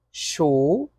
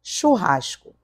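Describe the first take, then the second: First: Chu-ras-co said syllable by syllable, each part separated; split into syllables. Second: Said in the usual way. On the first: Shown as a demonstration. Teacher to class, splitting churrasco into syllables. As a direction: break churrasco into chu, ras, co with little gaps. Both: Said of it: "Olha aqui, ó".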